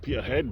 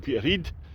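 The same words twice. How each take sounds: First: It is said the way outsiders commonly say it. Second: It is said the way locals actually say it. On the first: The speaker calls it wrong. "Other people might pronounce it Peterhead" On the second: The speaker calls it right. "but it's actually Peterhead"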